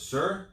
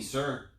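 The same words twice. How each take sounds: First: A much higher, louder call of Sir; raised voice. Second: Said in the usual way. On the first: Retold or imitated. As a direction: call out loudly to a man who is hard of hearing. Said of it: "Walks a little closer and raises his voice". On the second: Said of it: "raises his voice".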